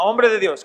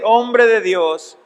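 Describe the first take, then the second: First: Said in the usual way. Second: Slow, drawn-out Hombre de Dios; solemn title. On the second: Shown as a demonstration. Pastor stressing Paul's words to Timothy, slow and solemn. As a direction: dwell on Hombre, very slowly. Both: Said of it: "Noten lo que le llama".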